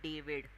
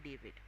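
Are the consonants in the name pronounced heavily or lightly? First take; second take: heavily; lightly. First: The consonants are pronounced with heavy force. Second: The consonants are pronounced very lightly. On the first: The speaker calls it wrong. "I will not say David" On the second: The speaker calls it right. "I will say David. Very slight pronunciation"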